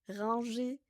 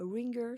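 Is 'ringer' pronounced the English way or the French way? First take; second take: French; English. First: The word is pronounced the French way. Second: The word is pronounced the English way. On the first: "Est-ce qu'en français, on dit ringer" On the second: "en anglais, on dit a ringer solution"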